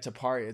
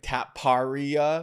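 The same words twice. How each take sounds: First: The first syllable does not sound like 'tap'. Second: The first syllable sounds like the word 'tap'. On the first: The speaker calls it right. "Yeah, Taparia. It's an Indian name" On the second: The speaker calls it wrong. "Like a tap car, like Taparia"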